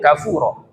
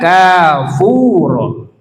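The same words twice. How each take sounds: First: The first vowel is short. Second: The first vowel is long. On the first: "Yang pertama itu satu harokat" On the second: "yang kedua satu alif atau dua harokat"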